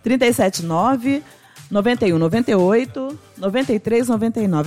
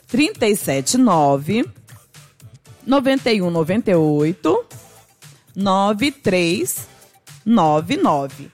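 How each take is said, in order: First: The number is read at normal speed. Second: The number is read slowly.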